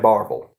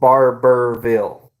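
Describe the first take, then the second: First: The name is shortened to two syllables. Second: The name is said in full, three syllables. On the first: This is how locals say it. "but we say Barville" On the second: This follows the written spelling. "It's spelled Barberville"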